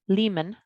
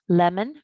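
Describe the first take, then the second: First: The first vowel is long. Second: The first vowel is short. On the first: The speaker calls it wrong. "it might sound more like Lehman" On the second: The speaker calls it right. "The vowel will have a short sound"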